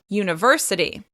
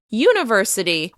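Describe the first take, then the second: First: The stress is on a middle syllable. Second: The stress is on the first syllable. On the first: The speaker calls it right. "make sure you're stressing this word on the right syllable" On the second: The speaker calls it wrong. "If you shift the stress to the beginning of the word"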